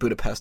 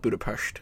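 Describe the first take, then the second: First: The name is said the plain, everyday way. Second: The name is said a fancier, put-on way. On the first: The speaker is not trying to sound sophisticated. "I'm saying Budapest" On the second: The speaker would be trying to sound sophisticated. "not Budapest, because I'm not trying to put on airs"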